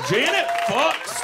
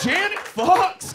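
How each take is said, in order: First: Slow, weighted Janet fucks; drawn-out emphasis. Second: Janet fucks pitched higher and stretched; higher, slower repeat. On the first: Comedian stressing the punchline to the crowd, slow and loud. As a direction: lean hard on Janet fucks, slowly. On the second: Comedian repeating the punchline to the crowd, higher and slower. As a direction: say it again, higher and more drawn out. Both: Acted.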